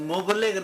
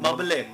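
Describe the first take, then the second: First: The first vowel is a 'u' sound. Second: The first vowel is an 'a' sound. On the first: The speaker calls it wrong. "ये लफ्ज़ मुबलिग नहीं है, मीम के ऊपर पेश नहीं है" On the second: The speaker calls it right. "बल्कि इसके ऊपर ज़बर है"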